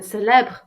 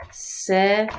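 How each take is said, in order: First: "célèbre" cut short, no "ay" at the end; two-syllable "célèbre", ending on the "br"; missing final é. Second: "célébré" ending on a full "ay" sound; careful French "célébré", three syllables; accented final é. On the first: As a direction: drop the final vowel sound of "célèbre". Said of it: "without the E accent". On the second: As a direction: sound the last é of "célébré" clearly. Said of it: "to be with an accent". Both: Shown as a demonstration.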